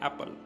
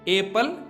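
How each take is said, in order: First: The first vowel is a short 'a' sound. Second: The first vowel is a long 'ay' sound. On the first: The speaker calls it right. "हमने इसको ए pronounce नहीं किया, simple एप्पल बोल दिया, इसलिए ये वाला जो है ये हमारे पास आ गया short" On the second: The speaker calls it wrong. "यहां पर इसको एप्पल नहीं बोलते"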